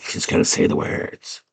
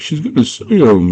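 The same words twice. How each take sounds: First: Whispered goblin aside; soft, voiceless hush. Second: High, excited goblin squeal; pitched-up mock anticipation. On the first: Retold or imitated. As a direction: imitate a listening goblin whispering to the others. Eavesdropping goblins whisper in retelling. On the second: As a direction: imitate a goblin alerting the others. Goblin reacts as words near.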